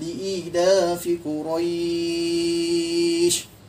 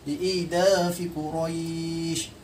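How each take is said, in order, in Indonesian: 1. Vokal panjang ditahan selama enam ketukan. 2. Vokal panjang ditahan selama empat ketukan. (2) "kita ambil empat. Empat harakat"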